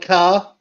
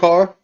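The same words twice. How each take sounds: First: The word is said in a Boston accent. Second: The word is said in a standard accent. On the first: This is how the woman being discussed says it. "So she says words like" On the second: This is how most people say it. "instead of"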